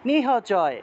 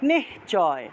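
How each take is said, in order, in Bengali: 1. 'h' ধ্বনিটি পুরোপুরি ও আলাদাভাবে উচ্চারিত হয়। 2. 'h' ধ্বনিটি পরের ধ্বনির সঙ্গে মিশে যায়। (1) "হটাকে পূর্ণ উচ্চারণ করতে হবে" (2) "হয়ের নিচে হসন্ত থাকায় উচ্চারণ হবে নিশ্চয়"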